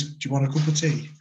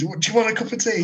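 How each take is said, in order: First: Said in the usual way. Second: Higher, amused cheery offer; mock British politeness. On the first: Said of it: "He just goes". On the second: Shown as a demonstration. Mocking the stepdad's very British offer, higher and amused. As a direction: play up how terribly British it is. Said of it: "Just the most British thing you could do".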